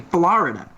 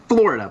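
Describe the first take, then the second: First: The first syllable does not sound like 'floor'. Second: The first syllable sounds like 'floor'. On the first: The speaker calls it wrong. "but they say Florida" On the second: The speaker calls it right. "my sister and I say Florida ... it's an O ... The floor"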